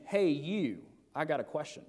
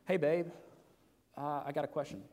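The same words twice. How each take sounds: First: Curt, rude ask. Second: Gentle, affectionate "Hey, babe, I got a question"; sweet ask to wife. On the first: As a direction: demand it like she's a stranger. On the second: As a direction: ask it like you're sweet on her. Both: Shown as a demonstration. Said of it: "You, you see the difference there?".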